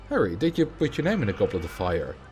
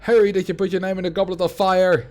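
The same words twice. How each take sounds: First: It is asked in a calm voice. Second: It is shouted angrily.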